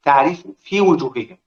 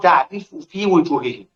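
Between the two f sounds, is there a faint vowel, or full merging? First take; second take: faint vowel; faint vowel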